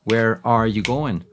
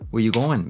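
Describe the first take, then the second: First: Slow "Where are you going", "are" sounded; full form. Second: Quick WEH-you-GO-en, no "are"; verb dropped. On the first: Teacher contrasting forms, slow full form. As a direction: slowly give "are" its own beat. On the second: Teacher contrasting forms, contracted. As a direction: run "where you" together, dropping R. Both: Shown as a demonstration. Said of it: "le saltan el verbo".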